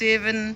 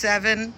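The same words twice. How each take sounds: First: It is said in a New Zealand accent. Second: It is said in a Bangladeshi English accent. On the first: "ওরা বলবে সেভেন। ওরা একটু ই উচ্চারণটা একটু বেশি করে।" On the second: "যেমন আমরা বলি সেভেন"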